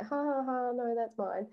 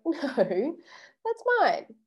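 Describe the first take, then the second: First: Giggling through a soft no; giggling, not meaning the no; giggly no. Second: Weak no. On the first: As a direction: laugh it off instead of refusing. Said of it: "That's kinda like". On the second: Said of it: "you haven't really said no". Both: Shown as a demonstration.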